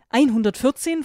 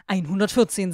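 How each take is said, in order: First: Higher, louder, rising disbelief; surprised question. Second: Said in the usual way. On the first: Acted. Girl hears the vampire's age, surprised rising question. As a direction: throw the number back in disbelief. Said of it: "Ich konnte mich gerade noch halten". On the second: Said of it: "sagte er".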